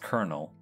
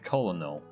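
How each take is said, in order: First: It sounds like 'kernel'. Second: It does not sound like 'kernel'. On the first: The speaker calls it right. "it's colonel, like the corn" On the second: The speaker calls it wrong. "You feel like you would say it colonel"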